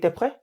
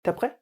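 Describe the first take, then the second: Both takes have the same delivery.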